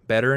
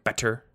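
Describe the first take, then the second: First: The middle consonant is a soft d sound. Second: The middle consonant is a crisp t sound. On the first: "But we just use D" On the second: "people in the UK tend to actually say t for tease"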